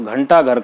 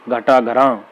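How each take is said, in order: First: The nasal sound comes after the first syllable. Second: The nasal sound comes on the final syllable. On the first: The speaker calls it right. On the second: The speaker calls it wrong.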